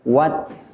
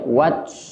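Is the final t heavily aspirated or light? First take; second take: aspirated; aspirated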